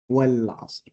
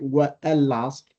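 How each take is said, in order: First: The vowel of 'al' is dropped and linked. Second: The vowel of 'al' is pronounced separately. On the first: The speaker calls it right. "We say wal, wal-asr" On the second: The speaker calls it wrong. "We do not say wa al-asr"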